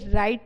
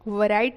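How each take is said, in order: First: The word starts without any w sound. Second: The word starts with a clear w sound. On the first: The speaker calls it right. "राइट पढ़ेंगे" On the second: The speaker calls it wrong. "वराइट नहीं पढ़ेंगे"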